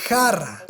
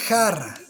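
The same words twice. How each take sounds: Both takes have the same delivery.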